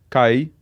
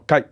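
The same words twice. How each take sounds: First: It is said with the tone meaning far. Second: It is said with the tone meaning near. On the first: The word means far. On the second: The word means near.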